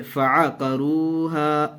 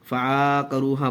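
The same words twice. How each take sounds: First: फ़अक़रूहा with each short vowel clear, fa-a-ka-ru-ha, said quickly; correct reading. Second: फ़अक़रूहा said run together as fakaruha, the wrong way; wrong reading. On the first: Teacher shows students the right reading, careful. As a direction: give फ़अक़रूहा its short a's, quick and even. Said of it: "इसको पढ़ेंगे". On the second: Teacher shows students the wrong reading, mock mistake. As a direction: show the common slip: फ़अक़रूहा without the pause on अ. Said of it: "फ़अक़रूहा गलत हो जाएगा". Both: Shown as a demonstration.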